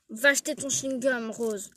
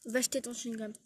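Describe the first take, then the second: First: Insisting teacher, louder; firm louder order. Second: Said in the usual way. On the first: Acted. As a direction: raise the voice on the repeated order. Prof répète l'ordre plus fort. (ordre répété plus fort)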